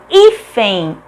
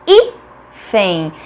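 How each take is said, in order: First: Joined-up "hífen", stressed at the start; stressed first syllable. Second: "hífen" split hí... fen; lower, detached beats in "hífen"; syllable by syllable. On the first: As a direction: announce "hífen" with emphasis on hí. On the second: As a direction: pause between the syllables of "hífen". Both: Shown as a demonstration. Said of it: "é uma palavra paroxítona".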